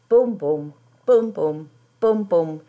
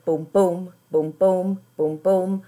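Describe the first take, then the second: First: The first boom of each pair is louder. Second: The second boom of each pair is louder.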